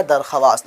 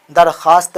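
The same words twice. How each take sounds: First: दरख्वास्त sounded out as darkhwaast, the w said; spelled out as written. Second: दरख्वास्त spoken as darkhaast, the w silent; as it is read. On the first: Teacher showing how the word is written, darkhwaast. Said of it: "लिखा जाएगा". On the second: Teacher showing how the word is read aloud, darkhaast. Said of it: "लेकिन पढ़ा जाएगा क्या". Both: Shown as a demonstration.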